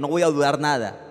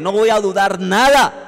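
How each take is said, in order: First: It is said at normal, softer volume. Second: It is said loudly and forcefully.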